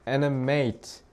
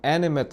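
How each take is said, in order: First: It is pronounced as the verb form. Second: It is pronounced as the adjective form. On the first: It means to give life or make move. "animate 하면 동사" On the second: It means having life. "animate 하면 뭐야? 형용사"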